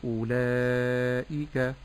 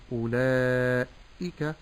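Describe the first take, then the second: First: أولئك very slow, single light hamza, thin kaf; correct pronunciation. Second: أولئك with the hamza doubled and pressed, a bit slow; wrong doubled hamza. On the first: Sheikh modelling the whole word أولئك correctly. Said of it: "نعم". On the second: Sheikh showing the mistake of doubling the hamza. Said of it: "بتشديد الهمز". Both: Shown as a demonstration.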